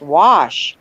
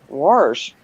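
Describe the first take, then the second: First: The word is said without an r sound. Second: The word is said with an r sound. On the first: This is how the word should be said. The speaker calls it right. "there's no R in there" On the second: This is how someone else said it. The speaker calls it wrong. "she always used to say wash"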